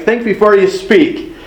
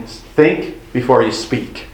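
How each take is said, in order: First: "before" lifted high and leaned on; stress on before. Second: Slow, softer recital of the saying; quoting the saying. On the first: Pastor repeats the saying, stressing "before" up high. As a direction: raise the pitch and hit "before". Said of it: "we've all heard that". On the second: Pastor slowly recites the old saying to the congregation. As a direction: say it slowly, like a familiar proverb. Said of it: "How many of you have heard the saying". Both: Shown as a demonstration.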